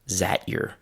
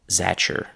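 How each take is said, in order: First: 'Is that' merges into a single 'zat' sound. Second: 'That your' blends together with a 'ch' sound. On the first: "the sound from that disappeared because it sounds very similar to the z sound" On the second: "the t and the y sounds have mixed into a ch sound"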